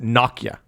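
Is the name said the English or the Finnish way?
Finnish. It is said the way Finnish speakers say it. "The Finns, where Nokia is based, pronounce it Nokia"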